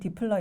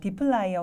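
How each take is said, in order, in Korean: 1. 둘째 음절은 'pler'로 발음해요. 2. 둘째 음절은 'plyer'로 발음해요. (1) "디플라이어 혹은 디플러 이렇게 발음을 합니다" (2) "디플라이어 혹은 디플러 이렇게 발음을 합니다"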